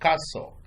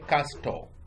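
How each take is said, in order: First: The T sound is silent in the middle. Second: The T sound is pronounced in the middle. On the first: The speaker calls it right. "the T is silent" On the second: The speaker calls it wrong. "Don't say castle"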